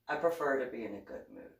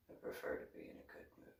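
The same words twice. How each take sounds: First: Said in the usual way. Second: Breathy whisper, fast and hushed; whispered repeat. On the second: Shown as a demonstration. Repeating her preference to Coyote as a whisper. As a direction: whisper it again quickly.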